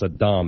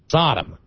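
First: The name is said as sa-DAHM. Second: The name is said like the word Sodom. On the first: The speaker calls it right. "the correct pronunciation of Saddam Hussein was Saddam" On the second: The speaker calls it wrong. "and not Saddam. Sodom"

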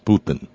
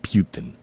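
First: The first syllable does not sound like 'pew'. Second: The first syllable sounds like 'pew'. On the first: The speaker calls it right. "Name is Putin" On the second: The speaker calls it wrong. "not Putin. Putin makes sound like my name has something to do with vomit"

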